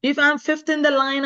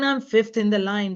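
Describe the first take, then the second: First: First said higher and louder, stressing "the line"; emphatic first take. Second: Said in the usual way. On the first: Real, not acted. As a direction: say "If I'm fifth in the line" firmly, leaning on "the line".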